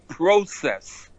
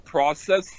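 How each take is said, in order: First: It is said with the Canadian vowel. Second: It is said with the usual American vowel. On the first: The speaker calls it wrong. "In Canada, they say process" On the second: The speaker calls it right. "like you go through a process"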